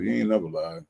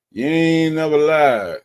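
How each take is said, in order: First: Said in the usual way. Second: You ain't never lied, louder, slow, stretched on ain't; emphatic agreement. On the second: Real, not acted. Streamer agreeing with a viewer, loud drawn-out emphasis. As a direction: lean hard on ain't.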